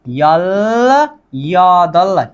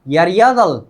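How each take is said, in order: First: The two words are said separately, with a plain l. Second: The two words run together, the l becoming r.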